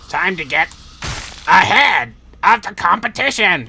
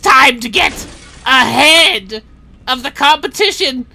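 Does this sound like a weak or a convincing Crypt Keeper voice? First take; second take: weak; convincing. First: A weak imitation of a creepy cackling voice. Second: A more convincing creepy cackling voice. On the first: The speaker calls it wrong. "that's that's a pretty bad Crypt Keeper" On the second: The speaker calls it right. "there we go. That's that's closer"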